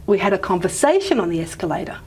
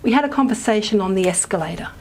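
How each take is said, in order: First: Main stress on the "sa" of conversation, escalator de-accented; contrastive stress on conversation. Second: Neutral reading with sentence stress on escalator; neutral declarative reading. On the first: Lecturer answers what did you have, main stress on conversation. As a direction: answer with conversation as the new information, escalator unstressed. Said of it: "the say would take the main stress".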